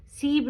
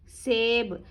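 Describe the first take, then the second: First: सीब with an "ee" vowel in place of "ay"; mispronunciation demo. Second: सेब with a long "ay" vowel, drawn out; correct pronunciation. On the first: Teacher warning learners off the misreading, सीब with "ee". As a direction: show the mistake सीब, with "ee". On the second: Teacher modelling for learners, सेब with a clear long "ay". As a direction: say सेब with "e", not "ee". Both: Shown as a demonstration. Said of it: "सीब नहीं है".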